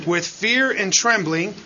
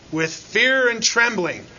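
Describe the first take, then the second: First: Said in the usual way. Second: "with fear and trembling" said slowly and a little higher, set apart as its own phrase; slow, weighty "with fear and trembling" as its own phrase; phrase pause. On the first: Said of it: "Then he says". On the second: Shown as a demonstration. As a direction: linger on "with fear and trembling" and let it sink in. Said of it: "comma, right?".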